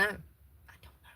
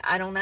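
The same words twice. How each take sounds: First: Slow breathy whisper echoing herself; hushed second take; whispered repeat. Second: Said in the usual way. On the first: Real, not acted. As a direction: let it fade to a whisper.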